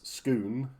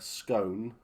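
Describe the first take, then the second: First: It is said the local Scottish way. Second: It is said the way the spelling suggests. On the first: The speaker calls it right. "but it's Scone" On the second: The speaker calls it wrong. "for us, it looks like uh, Scone"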